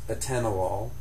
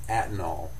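First: The word is said with four syllables. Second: The word is said with three syllables. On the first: The speaker calls it right. "it has four syllables in it" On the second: The speaker calls it wrong. "patients will often pronounce only three of them"

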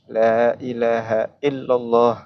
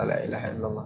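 First: The 'la' is long and the 'h' is clearly voiced. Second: The 'la' is short and the 'h' is not pronounced. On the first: The speaker calls it right. "memanjangkan la dan mengucapkan ha tadi, sukun di dalam ha" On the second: The speaker calls it wrong. "tidak dengan mat dan juga tidak dengan sukunil ha"

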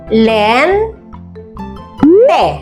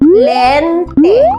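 First: The syllables are said slowly with a break between. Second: The syllables are said quickly as one word.

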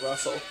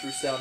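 First: The name is said like 'Russell'. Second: The name is said like 'roo-SELL'. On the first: The speaker calls it wrong. "not Russell" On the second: The speaker calls it right. "I would think it's Roussel"

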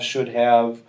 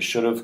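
First: The word have is pronounced in full. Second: The word have is reduced, sounding like of. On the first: "So when you say could have, would have, should have" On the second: "when you shorten them to should have"

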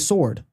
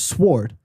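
First: It is said with the standard pronunciation of sword. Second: It is said sounding close to the word swore. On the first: The speaker calls it right. "She doesn't say sword" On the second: The speaker calls it wrong. "It sounds like the past tense of sword"

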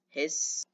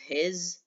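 First: The word ends with a hissing s sound. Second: The word ends with a buzzing z sound. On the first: The speaker calls it right. "like a snake's sound" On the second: The speaker calls it wrong. "you don't pronounce it as His"

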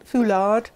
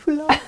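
First: The final D is clearly pronounced. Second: The final D is softened, nearly dropped. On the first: The speaker calls it wrong. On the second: The speaker calls it right.

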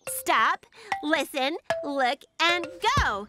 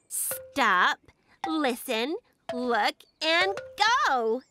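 First: It is said at a faster pace. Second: It is said at a normal pace.

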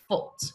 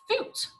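First: Foot has an oh-like vowel. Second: Foot has a short oo vowel. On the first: This is how people say it locally. "But we say foot" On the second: This is how the word reads.

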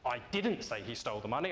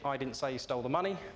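First: The word 'didn't' is stressed. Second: No word in the sentence is stressed. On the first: The speaker is annoyed at being accused of saying it. "I now seem cross that you think I did" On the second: It means exactly what the words say. "if you say that with a very single tone, it's very much as it is on the tin"

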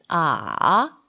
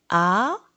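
First: The pitch dips low, then rises. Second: The pitch rises from mid to high. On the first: "3성은" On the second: "2성은"

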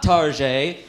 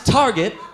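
First: The word is said with a fancy, put-on pronunciation. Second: The word is said plainly, as ordinary English. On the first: The speaker is pretending to be upscale. The speaker calls it wrong. "it's not Target. You wanna be bourgeois soccer moms" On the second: This is the normal way to say the store name. The speaker calls it right. "It is Target"

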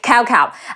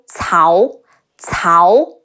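First: The name begins with a k sound. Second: The name begins with a ts sound. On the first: The speaker calls it wrong. "a lot of people mispronounce Cao as cow" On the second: The speaker calls it right. "The C in Cao is closer to the English TS sound"

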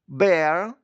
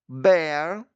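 Both takes have the same delivery.

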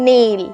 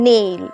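No difference in how they are said.

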